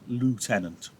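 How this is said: It is said with an American pronunciation. "In America"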